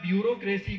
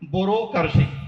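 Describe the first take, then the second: First: It is said with standard pronunciation. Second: It is said with rural Rajasthani pronunciation.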